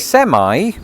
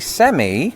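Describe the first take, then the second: First: It is said with an American pronunciation. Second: It is said with a British pronunciation. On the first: It refers to a truck. "It should sound American" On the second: It refers to a semi-final match. "I say semi if I'm watching the World Cup and I'm talking about the semi-finals"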